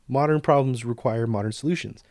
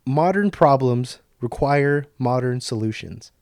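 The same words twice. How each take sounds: First: Throwaway remark. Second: Slow, deliberate "Modern problems require modern solutions."; quoted line. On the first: Retold or imitated. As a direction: say it like a passing aside. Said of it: "he just kinda said it as, like, a throwaway". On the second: Shown as a demonstration. Vlogger ending the episode on a quote: slow, deliberate read. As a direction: lean on each "modern". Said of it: "The quote".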